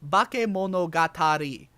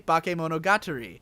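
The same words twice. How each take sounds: First: The word is said with an A sound. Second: The word is said with an E sound. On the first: The speaker calls it right. "it should be Bakemonogatari. Right? That's how it should be said" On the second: The speaker calls it wrong. "I always say it with an E. There's an E instead of an A"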